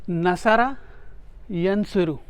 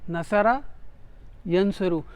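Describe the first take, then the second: No difference in how they are said.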